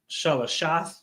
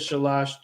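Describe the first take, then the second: First: The word ends with an extra 'ath' syllable. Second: The word ends on 'sh' with no extra syllable. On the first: This is how the word is written. "It says shala shalashath" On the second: This is the everyday spoken form. "shalash is just three, so you can pronounce it how you know"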